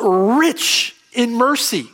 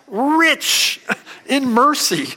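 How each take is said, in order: First: The phrase is said with ordinary, plain emphasis. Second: The phrase is said with strong, forceful emphasis.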